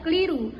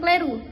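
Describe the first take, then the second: First: The vowel after the l is an i sound. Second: The vowel after the l is an e sound. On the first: The speaker calls it right. "Lafalan bakunya terdiri dari kata ilham dan keliru" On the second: The speaker calls it wrong. "fonem I dilafalkan menjadi E"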